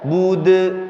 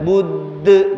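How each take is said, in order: First: The consonant is released at once without holding. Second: The consonant is held long before release. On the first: The speaker calls it right. "Langsung aja bude" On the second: The speaker calls it wrong. "jangan bude, jangan ditahan"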